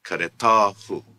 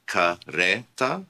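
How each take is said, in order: First: Caretahu loud, stress on ta. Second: Careta said very slowly, stress on re; slow stress demo. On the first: Teacher modelling the stress shift for learners. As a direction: punch the ta in caretahu. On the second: Teacher slowly modelling the stress for learners. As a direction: draw out careta, leaning on re. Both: Shown as a demonstration. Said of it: "Note the change in the stress".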